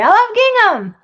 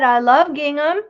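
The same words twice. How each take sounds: First: It is said excitedly, as an exclamation. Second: It is said in a flat, plain way.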